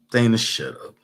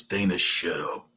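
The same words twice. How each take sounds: First: Said in the usual way. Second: Low, soft creature voice saying Dana, shut up; bedbug voice. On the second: Shown as a demonstration. Streamer telling Dana to shut up in bedbug voice, low. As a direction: croak it like a tiny bug. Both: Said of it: "In my bedbug voice".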